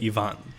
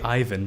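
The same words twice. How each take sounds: First: The name is pronounced the non-American way. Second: The name is pronounced the American way. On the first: "in everywhere else you say Ivan" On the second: "In the States you say Ivan"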